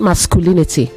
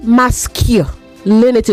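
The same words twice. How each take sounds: First: The 'cu' is said with a 'koo' sound. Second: The 'cu' is said with a 'kyoo' sound. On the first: The speaker calls it wrong. "not masculinity" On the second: The speaker calls it right. "You say masculinity"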